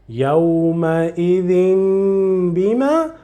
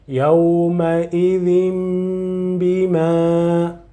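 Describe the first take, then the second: First: The ending is said with an n sound. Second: The ending is said with a held m sound. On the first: The speaker calls it wrong. "Not يومئذ بما" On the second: The speaker calls it right. "but يومئذ بما"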